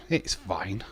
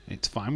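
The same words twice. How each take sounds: First: Said in the usual way. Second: Whispered to himself; a tiny whispered reassurance. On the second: Shown as a demonstration. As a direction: breathe it out as a whisper. Reassuring himself about falling behind.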